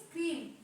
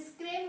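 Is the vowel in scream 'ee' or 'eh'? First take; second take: ee; eh. First: The vowel is a long 'ee' sound. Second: The vowel is a short 'eh' sound. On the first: The speaker calls it right. "हे वेलांटीचं काम करणार" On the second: The speaker calls it wrong. "स्क्रेम होईल का नाही"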